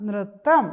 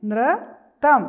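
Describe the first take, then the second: First: Said in the usual way. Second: High, much louder model of നൃത്തം; teacher models നൃത്തം for the children; loud model word. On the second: Shown as a demonstration. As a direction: call out നൃത്തം slowly for the class. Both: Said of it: "ഒരു പ്രാവശ്യം കൂടെ പറഞ്ഞേ".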